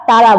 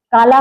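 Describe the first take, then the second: First: ताला with a T for the K; child's lisp. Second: Said in the usual way. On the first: Shown as a demonstration. Teacher answers as the child would, lisped ताला. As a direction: turn काला into ताला, K becoming T. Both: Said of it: "क्या बोले बच्चा".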